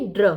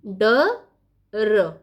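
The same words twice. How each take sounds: First: ड्र as one joined sound; blended cluster. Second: ड, then a pause, then र; split into sounds. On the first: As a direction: run ड straight into र as ड्र. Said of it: "कैसे हम पढ़ते हैं". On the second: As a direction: say ड and र as two separate sounds. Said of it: "फिर पदेन". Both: Shown as a demonstration.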